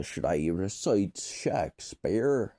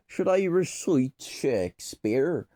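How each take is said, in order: First: Said in the usual way. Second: Higher, hammed-up stage delivery; raised, declaiming question; theatrical Shakespearean. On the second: Shown as a demonstration. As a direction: ask it like a Shakespearean player. Repeats question in theatrical accent.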